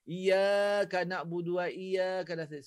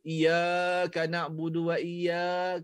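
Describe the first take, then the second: First: Iyyaka with a two-beat length, slower; correct recitation. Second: Iyyaka stretched far too long, slow; overlong iyyaka. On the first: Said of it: "memang hukum mat". (bacaan iyyaka yang betul) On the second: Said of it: "baca panjang sangat". (iyyaka dipanjangkan terlalu lama) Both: Shown as a demonstration.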